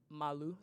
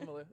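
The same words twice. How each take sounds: First: The name is pronounced the French way. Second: The name is pronounced the plain English way. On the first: This is how the family says it. "my family say Malu because it's French, like Malu" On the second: This is the way for people who are not French. "If you're not French, just don't say it like that. Just say Malu"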